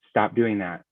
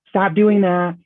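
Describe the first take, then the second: First: It is said slowly and firmly, in a lower pitch. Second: It is said lightly, in a high, laughy pitch.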